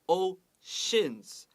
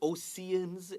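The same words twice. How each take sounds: First: The middle consonant is an 'sh' sound. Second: The middle consonant is a plain 's' sound. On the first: The speaker calls it right. "这个 C E 也有一点 S H 的发音" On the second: The speaker calls it wrong. "Don't say oceans"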